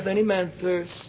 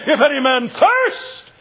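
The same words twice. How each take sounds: First: It is spoken quietly and mildly. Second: It is cried out at high volume. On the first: The speaker holds back what the soul feels. The speaker calls it wrong. "You mean to tell me He stood in the temple and said" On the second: What the soul feels is forced out. The speaker calls it right. "He cried"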